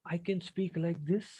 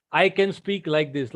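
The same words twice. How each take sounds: First: Very quiet. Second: Full ordinary speaking volume; normal volume. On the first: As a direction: speak barely above a breath. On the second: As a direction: bring the volume back up to normal. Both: Shown as a demonstration. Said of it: "we also have a volume".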